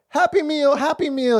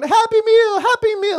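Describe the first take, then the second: First: Put-on high, eager small-child voice; little girl begging. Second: Put-on much higher, louder squeal of a little girl; excited toddler. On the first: Imitating a toddler begging her dad, high and eager. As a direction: chant it like an excited toddler. Three-year-old daughter asking. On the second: Imitating a thrilled toddler at McDonald's, high squeal. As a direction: squeal it like a thrilled three-year-old. Daughter voiced again.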